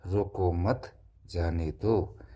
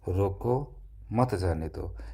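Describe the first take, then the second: First: A pause comes after the word mat. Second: A pause comes after the word roko. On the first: Do not stop the person; let them go. "उसे जाने दिया जाए और रोकना नहीं है" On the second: Stop the person and do not let them go. "यानी कि कोई बंदा है उसको जो है रोक लो और मत जाने दो"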